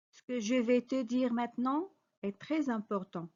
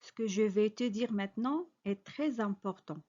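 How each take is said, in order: Both takes have the same delivery.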